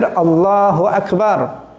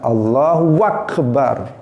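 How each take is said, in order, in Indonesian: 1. Dibaca tanpa tambahan atau pemanjangan bunyi. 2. Ada bunyi w tambahan di antara kata-katanya.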